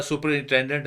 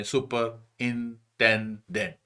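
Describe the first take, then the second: First: Said in the usual way. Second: سپرنٹینڈنٹ slowly as super-in-ten-dent; broken into chunks. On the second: Shown as a demonstration. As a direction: pause after each chunk of سپرنٹینڈنٹ. (سپرنٹینڈنٹ کو ٹکڑوں میں، آہستہ آہستہ) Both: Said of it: "اس کے آپ chunk بنا لیں".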